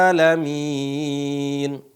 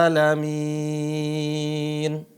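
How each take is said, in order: Both takes have the same delivery.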